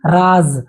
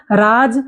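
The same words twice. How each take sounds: First: "राज" said as raaz, ending in z; nukta z sound. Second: "राज" with a hard j at the end; plain j sound. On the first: Teacher recapping the pairs for students, "राज" pronounced raaz with a z. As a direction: end "राज" on a buzzing z. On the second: Teacher recapping the pairs for students, "राज" ending in j. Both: Shown as a demonstration. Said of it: "उच्चारण भी अलग होगा".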